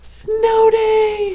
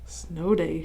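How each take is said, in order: First: It sounds excited, like a cheer. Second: It sounds plain, like a calm statement. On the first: The speaker is certain it is a snow day. "she cheered. ... and it definitely is" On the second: The speaker thinks it may be a snow day. "she said. ... Maybe it is"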